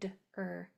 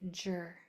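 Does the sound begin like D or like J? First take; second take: D; J. First: The cluster begins with a clear D sound. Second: The cluster begins with a J-like sound. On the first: The speaker calls it right. "It's d-er" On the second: The speaker calls it wrong. "We don't want it to sound like jr"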